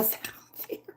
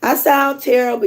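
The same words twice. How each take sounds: First: Fast breathless whisper about her own voice. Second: Said in the usual way. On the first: Real, not acted. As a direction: whisper it quickly, voice too hoarse to push.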